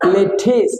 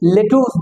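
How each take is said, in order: First: The second vowel is an i sound. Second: The second vowel is an oo sound. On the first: The speaker calls it right. "আসলে সঠিক উচ্চারণ হবে লেঠিস" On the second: The speaker calls it wrong. "লেটুস বলে"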